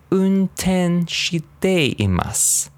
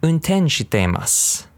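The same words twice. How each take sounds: First: Unten shiteimasu very slow, pitched high; slow model for repeating. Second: Unten shiteimasu at a quicker, natural pace; a little faster. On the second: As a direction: speed Unten shiteimasu up a touch. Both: Shown as a demonstration. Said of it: "Say a little faster".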